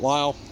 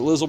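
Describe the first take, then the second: First: The word is said as one syllable, 'Lisle'. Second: The word is said as two syllables, 'Lizzle'. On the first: This is how people locally say it. "around here they say it Lisle" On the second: This is how some other people say it. "some people say it Lizzle"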